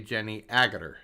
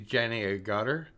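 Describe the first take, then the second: First: The surname is stressed on its first syllable. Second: The surname is stressed on its second syllable. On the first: This is the English way of saying it. "but they say" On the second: This is the North American way of saying it. "in the United States we put the accent on the second syllable"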